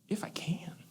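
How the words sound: It sounds warm, gentle and playful. A kind, knowing reassurance that help is near. The speaker calls it right. "there was a twinkle in Jesus' eye"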